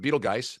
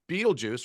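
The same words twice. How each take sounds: First: The name does not begin like beetle. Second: The name begins with a sound like beetle.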